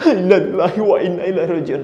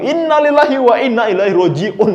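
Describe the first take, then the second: First: It is said in an exaggerated, overly sad tone. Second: It is said in an upbeat, cheerful tone. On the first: The sympathy is overdone and seems fake. "jangan berlebihan juga ya ... Itu uh, lebay ya" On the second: The news seems to be welcomed rather than mourned. "jangan kebalikannya"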